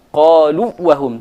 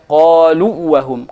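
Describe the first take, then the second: The two takes are said the same way.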